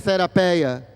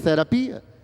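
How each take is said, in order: First: The ending has an 'ei' diphthong before 'a'. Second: The ending has a plain 'i' before 'a'. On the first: This is the older pronunciation of the word. "na pronúncia erasmiana do Novo Testamento" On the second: This is how the word is said today. "no grego moderno, falado hoje em dia na Grécia"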